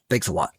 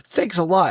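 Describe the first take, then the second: First: It sounds sarcastic and dismissive. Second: It sounds sincere and plainly grateful. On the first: The speaker wants to be left alone. "it feels a lot more sarcastic" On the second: The thanks is genuine. "I don't feel like he's saying like, you know"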